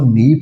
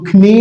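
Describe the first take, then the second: First: The word starts directly with the n sound. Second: A k sound is pronounced before the n. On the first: The speaker calls it right. "हम उसको नी पढ़ेंगे" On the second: The speaker calls it wrong. "हम उसको खनी नहीं पढ़ेंगे"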